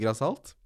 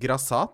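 First: The word ends in -alt with an L sound. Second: The word ends in -at with no L sound. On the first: The speaker calls it wrong. "og ikke grassalt" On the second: The speaker calls it right. "det heter grassat"

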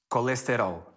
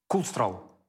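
First: It is said in a Brazilian Portuguese accent. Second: It is said in a European Portuguese accent.

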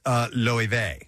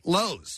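First: It does not sound like the hardware store. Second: It sounds like the hardware store name. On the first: The speaker calls it right. "It's pronounced Loewe" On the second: The speaker calls it wrong. "at a quick glance, I would say Lowe's"

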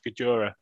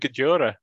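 First: The name is said with just two syllables. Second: The name is said with more than two syllables. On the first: The speaker calls it right. "He pronounced it himself, Gajora, two syllables" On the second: The speaker calls it wrong. "I thought it was Gediora"

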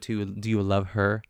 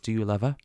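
First: The R sound is pronounced, in a plain delivery. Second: The R sound is dropped, with a lilting tune. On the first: "as opposed to" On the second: "this sort of like lilt. She says"

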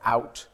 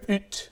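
First: It has an English 'ow' vowel. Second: It has a Scottish 'oo' vowel.

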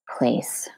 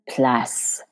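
First: The word is said with English pronunciation. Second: The word is said with French pronunciation.

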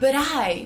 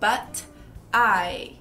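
First: It is run together quickly, American style. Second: Each sound, including the t, is said clearly.

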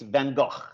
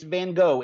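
First: The name is said with a Dutch pronunciation. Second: The name is said with an English pronunciation. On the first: This is how the name is said in its home country. "In Holland, well, in Northern Europe, Belgium as well, it's Van Gogh" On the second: This is how the name is said at home in English. "We live here. It's Van Gogh"

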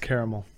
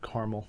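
First: The word is said with three syllables. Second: The word is said with two syllables. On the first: The speaker calls it right. "It's caramel" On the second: The speaker calls it wrong. "not caramel"

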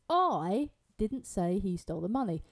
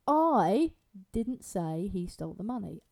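First: The word 'I' is stressed. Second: The word 'I' is stressed.

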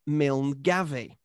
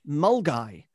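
First: The name begins with 'Mil' and follows its spelling. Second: The name begins with 'Mul' and sounds like 'Mulguy'. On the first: The speaker calls it wrong. "I pronounced it as it looks" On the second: The speaker calls it right. "I should have known it was pronounced Mulgai"

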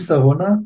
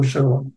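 First: The name begins with an s sound. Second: The name begins with an sh sound. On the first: This is the local everyday form of the name. "היא נשמרה כסמך, שרונה... ולכן הם אומרים שרונה" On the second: This is the official form of the name. "אבל השם הרשמי שלו הוא שרונה"

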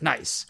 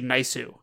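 First: It is said the plain English way. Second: It is said Japanese-style, with an added vowel.

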